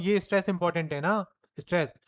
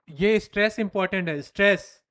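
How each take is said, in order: First: Said in the usual way. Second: stress said louder and hit hard; stress on stress. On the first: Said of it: "मैं कह रहा हूं". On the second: Shown as a demonstration. Teacher demonstrating stress by hitting stress. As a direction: punch the word stress loudly. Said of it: "मैंने voice भी बढ़ाया".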